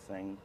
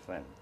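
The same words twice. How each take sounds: First: The final G sound is fully pronounced. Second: The final G sound is brushed off. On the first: The speaker calls it right. "instead of saying thing" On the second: The speaker calls it wrong. "I kind of brush off the G"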